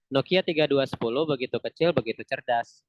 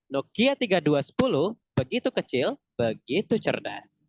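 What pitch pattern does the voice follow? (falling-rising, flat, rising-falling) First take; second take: flat; rising-falling. First: The pitch stays flat throughout the phrase. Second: The pitch rises and then falls. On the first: "Intonasi yang pertama yang flat" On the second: "nadanya dari naik ke turun"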